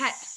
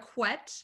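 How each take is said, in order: First: The syllable begins with a plain k sound. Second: The syllable begins with a kw sound. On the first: The speaker calls it right. "It is a ket sound" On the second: The speaker calls it wrong. "not a quet"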